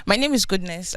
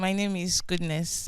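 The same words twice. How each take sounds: First: Speaking up. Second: Soft and hard to hear; too quiet at first. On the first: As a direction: raise your voice to be heard. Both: Real, not acted. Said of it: "Can you speak up, please?".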